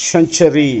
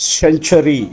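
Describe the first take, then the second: Both takes have the same delivery.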